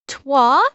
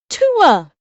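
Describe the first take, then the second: First: The word is squeezed into a single 'twa' syllable. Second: The word is said as two syllables, 'too-ah'. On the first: The speaker calls it wrong. "he's pronouncing it Twa" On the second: The speaker calls it right. "It's pronounced Hawk Tua. As in the sound you make when you're hawking up a loogie and spitting it"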